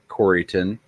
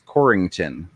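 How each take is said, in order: First: The name is said without an added 'ing' sound. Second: The name is said with an added 'ing' sound. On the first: The speaker is an outsider. The speaker calls it wrong. "if you pronounce it Corryton, everybody knows you're not from there" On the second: The speaker is a local. The speaker calls it right. "anybody that's from there throws ing into it. It's Corrington"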